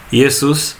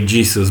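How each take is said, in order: First: The name begins with a Y sound. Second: The name begins with a J sound. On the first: The speaker calls it right. "and that's how we say" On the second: The speaker calls it wrong. "You don't say Jesus because that's not an J"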